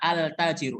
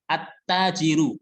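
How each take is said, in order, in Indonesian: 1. Huruf L dibaca jelas sebelum konsonan itu. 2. Huruf L melebur ke konsonan setelahnya. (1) "Ini salah, cara pembacaan yang salah" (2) "alif lamnya tidak terdengar saat dibaca"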